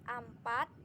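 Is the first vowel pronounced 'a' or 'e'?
a. The first vowel sounds like 'a'. This is influenced by a regional dialect. "terpengaruh karena dialek daerahnya mengatakan empat itu menjadi ampat"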